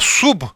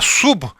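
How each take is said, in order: First: The vowel after the s is u. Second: The same.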